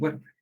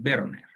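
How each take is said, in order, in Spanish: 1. El nombre empieza con sonido W. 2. El nombre empieza con sonido V. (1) "muchas personas me dicen Werner" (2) "la pronunciación correcta es Werner"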